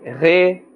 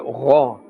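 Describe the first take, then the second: First: The syllable is said with a thin, light vowel. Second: The syllable is said with a full, thick vowel. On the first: The speaker calls it wrong. "We should not say re" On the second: The speaker calls it right. "We should say ra. This also has a fuller sound"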